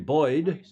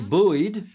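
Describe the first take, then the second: First: It is said with a non-American pronunciation. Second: It is said with an American pronunciation. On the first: "as the rest of you would say" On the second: "as we Americans say"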